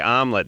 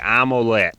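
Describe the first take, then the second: First: The word is said in a plain accent. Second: The word is said in a New York accent. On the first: This is how it is usually said elsewhere. "they don't say omelet" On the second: This is how locals in New York say it. "they say omelette, which is uh, real attractive"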